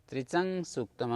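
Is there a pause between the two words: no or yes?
no. The words run together with a nasalized link. The words are read joined in connected recitation. "अनुस्वार युक्त पढ़ना पड़ेगा"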